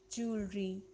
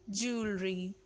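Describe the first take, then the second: First: It is said in a native-like way. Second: The same.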